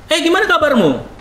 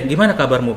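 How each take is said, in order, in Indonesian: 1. Suaranya bernada tinggi dan naik. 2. Suaranya bernada rendah dan tenang. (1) "ngomong ke atas itu nggak masalah" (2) "setiap kali konflik nadaku turun"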